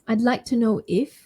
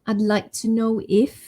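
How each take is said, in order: First: It begins with the short form "I'd". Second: The same.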